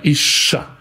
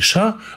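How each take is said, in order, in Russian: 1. Звук sh длинный и удвоенный. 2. Звук sh короткий и одиночный. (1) "а «иша»" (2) "Правильно читать не «иша»"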